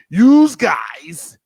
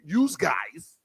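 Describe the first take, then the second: First: Loud Jersey "yous guys"; New Jersey accent. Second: New Jersey accent. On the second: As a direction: drop into a Jersey accent for "yous guys". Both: Shown as a demonstration. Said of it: "in my New Jersey accent".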